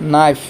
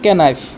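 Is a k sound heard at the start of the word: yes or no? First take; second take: no; yes. First: The word starts with an n sound, no k. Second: The word starts with a k sound before n. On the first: The speaker calls it right. "কিন্তু সঠিক উচ্চাৰণ হ'ল নাইফ" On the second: The speaker calls it wrong. "বহুতে কি পঢ়িব? কে নাইফ"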